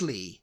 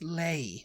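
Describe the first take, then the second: First: The vowel sounds like the one in 'see'. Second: The vowel sounds like the one in 'day'. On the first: This is how the name is actually said. "But it's Lee" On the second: This is how the spelling looked to a child reading it. "I was just like, that's Lay"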